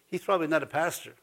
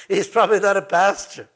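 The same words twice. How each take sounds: First: Quick, much softer under the breath; sly muttered jab; muttered aside. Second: Said in the usual way. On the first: Acted. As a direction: toss it off quietly to yourself.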